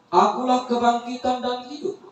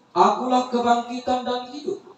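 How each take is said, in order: Both takes have the same delivery.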